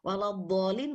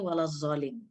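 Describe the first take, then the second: First: The key consonant is a heavy d-like sound. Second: The key consonant is a z sound. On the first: The speaker calls it right. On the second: The speaker calls it wrong.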